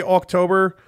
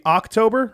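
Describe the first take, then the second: First: October with a rounded "awk" start; own pronunciation of October. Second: October with an open "ahk" start; standard pronunciation of October. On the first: Showing the word his girlfriend teases, October as "awk-tober". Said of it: "Like, I say October". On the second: Showing how it's supposed to be, October as "ahk-tober". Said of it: "I think it's supposed to be". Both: Shown as a demonstration.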